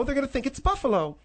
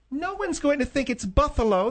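First: Said in the usual way. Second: "Buffalo" said with a th, as "Buthalo"; lisped Buffalo. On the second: Shown as a demonstration. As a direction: swap the f in "Buffalo" for a th. Correcting how Buffalo was heard.

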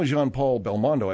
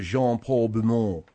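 First: "Belmondo" fully sounded as bel-MON-doh; familiar American pronunciation. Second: "Belmondo" squashed into a mumbled French "buh-moh"; imitated French pronunciation. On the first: Shown as a demonstration. Host giving the name he knows, American pronunciation. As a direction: say "Jean-Paul Belmondo" with an American "Belmondo". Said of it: "I've heard that". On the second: Host echoing the co-host's unfamiliar version, French pronunciation. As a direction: mimic a French "Jean-Paul Belmondo", consonants swallowed, lower pitch. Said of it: "I've never heard".

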